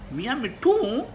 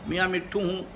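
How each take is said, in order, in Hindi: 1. यह बड़ी हैरानी के साथ कहा गया है। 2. यह नरमी और प्यार से कहा गया है। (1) "बड़ी हैरानी के साथ" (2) "बड़े प्यार से"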